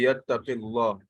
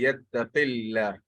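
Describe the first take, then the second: First: The L is heavy, with a full mouth. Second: The L is light, with an empty mouth. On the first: The speaker calls it wrong. "It's not it's not going to be yattaqillah" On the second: The speaker calls it right. "it's going to be yattaqillah because the the Allah is preceded by a kasra"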